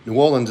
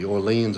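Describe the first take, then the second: First: Orleans said as "AW-lunz"; city-name pronunciation. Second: Orleans said as "or-LEENZ"; parish-name pronunciation. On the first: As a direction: say Orleans short, stressed on the first syllable. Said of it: "Orleans is the parish". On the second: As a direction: say Orleans with a long "ee" in the second syllable. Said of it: "New Orleans is the city". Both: Shown as a demonstration.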